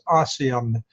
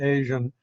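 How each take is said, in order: First: It is said as three syllables, ah-see-an. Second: It is said as two syllables, ay-zhun. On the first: The speaker calls it right. "we usually pronounce that as ASEAN" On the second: The speaker calls it wrong.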